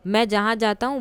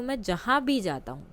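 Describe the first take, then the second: First: Said in the usual way. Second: भी in "जहाँ भी जाता हूँ" said with a falling accent; stress on भी. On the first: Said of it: "तो मैं जहाँ भी जाता हूँ". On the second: Shown as a demonstration. Teacher contrasts the sentence with भी, stressing भी. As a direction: lean on भी to mean everywhere. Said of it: "यानी कि हर जगह की बात हो गई".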